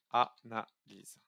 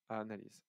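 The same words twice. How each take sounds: First: "analyse" slowly, one syllable at a time; broken into syllables. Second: Said in the usual way. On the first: Shown as a demonstration. Teacher sums up the first step, "analyse" slow and syllable by syllable. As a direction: stretch "analyse" into separate, weighty syllables. Key takeaway spelled out by syllables.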